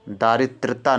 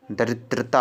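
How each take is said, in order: First: "दारिद्रता" with a long first aa; wrong form demonstrated. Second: "दरिद्रता" with a short first a; correct form demonstrated. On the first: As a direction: start "दारिद्रता" with long daa. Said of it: "दारिद्रता नहीं होता है". ("दारिद्रता" में बड़ा आ) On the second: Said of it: "दरिद्रता होता है". ("दरिद्रता" में छोटा अ) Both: Shown as a demonstration.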